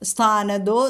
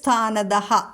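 First: The word ends with a long 'o' sound. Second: The word ends with a breathy 'ah' sound. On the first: "അവിടെ ഓകാരം വന്നിരിക്കുന്നു" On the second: "വിസർഗം കഴിഞ്ഞിട്ട് സ്ഥാനതഃ"

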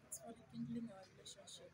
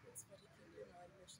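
First: It is said loudly. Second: It is said quietly.

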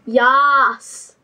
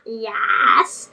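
First: The vowel sounds like the one in cat. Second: The vowel sounds like the one in bed. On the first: The speaker calls it right. "It's yas" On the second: The speaker calls it wrong. "It's not yes"

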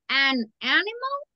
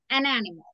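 First: 'An' and 'animal' are said with a break. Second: 'An' and 'animal' are said without a break. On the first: The speaker calls it wrong. "No me lo separe, right? An animal? No" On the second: The speaker calls it right. "Léalo todo de corrido. You're going to say an animal"

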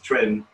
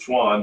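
First: The word is said with a Chinese pronunciation. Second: The word is said with an American pronunciation. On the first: "every Chinese I've ever dealt with says Chuan" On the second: "A lot of people in America pronounce it Chuan"

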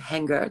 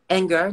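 First: The word begins with an h sound. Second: The word begins with a plain vowel. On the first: The speaker calls it wrong. "That's my French accent. I'm terrible" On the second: The speaker calls it right. "Anger, not hanger"

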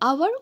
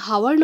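First: The word begins with a vowel sound. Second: The word begins with an h sound. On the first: The speaker calls it right. "আমি কি পড়ু আওয়ার" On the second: The speaker calls it wrong. "আমি হাওয়ার ন পড়ু না হয়"

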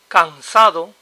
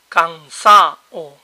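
First: The d before the final vowel is pronounced. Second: The d drops, so the word ends in -ao.

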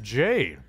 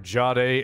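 First: The word is said with plain English pronunciation. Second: The word is said with a French pronunciation.

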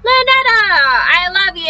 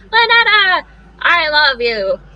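First: It is said fast. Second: It is said slowly.

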